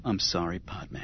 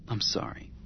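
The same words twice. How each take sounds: First: Soft, low apology; a soft, sorry murmur; said softly. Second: Breathy whisper, almost no voice; whispered I'm sorry; whispered apology. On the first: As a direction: say it gently and quietly. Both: Acted. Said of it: "He said softly".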